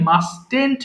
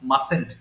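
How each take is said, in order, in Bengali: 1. মাঝের t ধ্বনিটি উচ্চারিত হয়। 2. মাঝের t ধ্বনিটি নীরব। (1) "মাস্টেন্ট বলবা না কেউ" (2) "মাসেন্ট বলবা"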